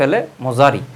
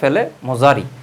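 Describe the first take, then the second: First: The second word has a z sound. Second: The second word has a z sound.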